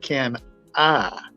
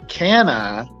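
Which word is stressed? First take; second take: I; can. First: The stress is on the word I. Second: The stress is on the word can. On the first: It asks whether one is the kind of person to do it. "we put it on the word I" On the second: It asks whether one has the ability. "we'll put emphasis on the word "can,""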